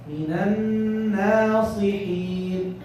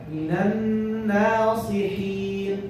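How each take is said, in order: No difference in how they are said.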